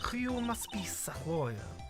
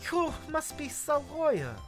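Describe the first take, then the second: First: The put-on voice is pitched lower. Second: The put-on voice is pitched higher.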